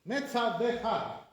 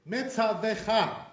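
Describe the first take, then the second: Both takes have the same delivery.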